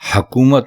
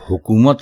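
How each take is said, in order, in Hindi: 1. पहले अक्षर में 'a' स्वर है। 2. पहले अक्षर में 'u' स्वर है। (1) "दुरुस्त लफ्ज़ हकूमत नहीं" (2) "बल्कि हुकूमत है"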